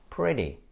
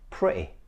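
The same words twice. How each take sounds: First: The middle T sounds like a soft D. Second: The middle T is cut off sharply. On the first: "you should not pronounce it like D, because this is what Americans do" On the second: "This is actually a glottal stop"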